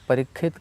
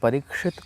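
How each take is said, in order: First: It is said with a Bengali accent. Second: It is said with standard Sanskrit pronunciation.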